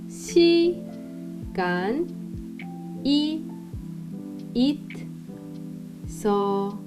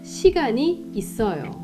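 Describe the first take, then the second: First: It is said slowly. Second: It is said at normal speed.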